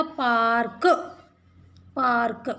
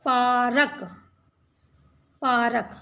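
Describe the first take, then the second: First: पार्क as one syllable, r straight into k; पार्क said park, no vowel after र; correct reading. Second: पारक as three syllables, paa-ra-k; पारक with a vowel after the र; split reading. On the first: Teacher showing the joined form, correct cluster. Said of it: "तो क्या हो जाएगा?". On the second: Teacher reading the unjoined form before fixing it. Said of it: "तो ये का के ऊपर लगा दिया". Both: Shown as a demonstration.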